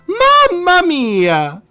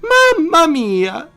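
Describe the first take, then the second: First: The exclamation is said strongly. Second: The exclamation is said weakly.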